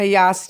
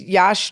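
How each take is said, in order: First: The word has an 's' sound after the vowel. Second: The word has an 'sh' sound after the vowel. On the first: The speaker calls it right. "Like toss with a Y" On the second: The speaker calls it wrong. "You always say that wrong"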